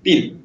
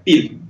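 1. Гласный — передний звук, похожий на «и». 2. Гласный — передний звук, похожий на «и».

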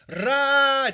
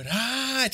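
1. Слово произносится громко и напористо. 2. Слово произносится тихо, почти без звука. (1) "просто рать! Воу!" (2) "А он такой рать!"

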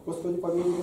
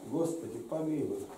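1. Её выпаливают быстро, на одном дыхании. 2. Её произносят медленно, с паузой. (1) "Они соревнуются на одно дыхание" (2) "А у нас учатся по-другому"

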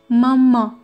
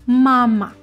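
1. L'accent est sur la dernière syllabe. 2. L'accent est sur la première syllabe. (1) "en français, on prononce mama. Mais pas en russe" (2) "on va mettre plus de force pour prononcer la première voyelle A"

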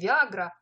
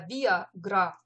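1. Ударение падает на средний слог. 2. Ударение падает на последний слог. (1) "это не Виагра" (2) "а Виагра"

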